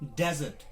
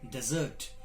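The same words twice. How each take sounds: First: The stress is on the first syllable. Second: The stress is on the second syllable. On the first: It is used as a noun. "if it is used as a noun, it is pronounced as desert" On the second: It is used as a verb. "if it is used as a verb, it is pronounced as desert"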